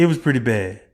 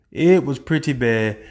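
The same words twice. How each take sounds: First: Said in the usual way. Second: It was pretty bad drawn out slowly, each word leaned on; slower emphatic repeat. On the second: Shown as a demonstration.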